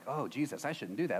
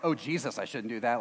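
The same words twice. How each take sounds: First: Jesus is addressed gently, like a prayer. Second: Jesus is blurted out like a curse.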